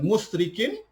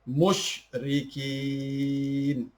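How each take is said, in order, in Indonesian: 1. Suku kata rikin dibaca pendek. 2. Suku kata rikin dibaca panjang. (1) "bukan musyrikin" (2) "Rikin itu dibaca panjang"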